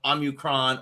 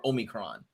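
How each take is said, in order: First: Omicron starting with "ah"; first accepted pronunciation. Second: Omicron starting with "oh"; long "oh" at the start of Omicron; second accepted pronunciation. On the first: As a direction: say "Omicron" as AH-myu-cron. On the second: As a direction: say "Omicron" as OH-mi-cron. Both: Shown as a demonstration. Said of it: "Either way would be acceptable ways".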